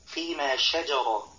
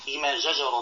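First: The first consonant is a clear, spread sh. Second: The first consonant sounds like a j. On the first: The speaker calls it right. "والصواب أن يقول" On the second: The speaker calls it wrong. "يبدل الشين جيما"

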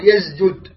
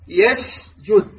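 First: The s sound is buzzing, with little breath. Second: The s sound is breathy, with audible air. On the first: The speaker calls it wrong. "لا تقول يسجد" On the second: The speaker calls it right. "يعني تأتي بالهمس"

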